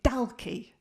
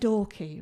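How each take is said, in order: First: The name is said the outsider's way. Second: The name is said the local way. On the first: The speaker calls it wrong. "I was pronouncing it Dalkey. ... hearing me say it wrong" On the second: The speaker calls it right. "I was living in"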